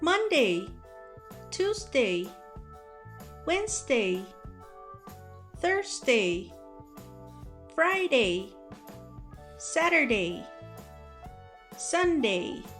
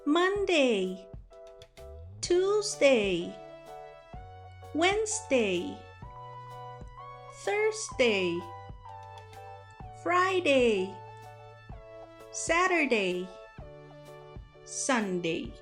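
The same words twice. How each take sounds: First: The days are said at a faster pace. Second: The days are said at a slower pace.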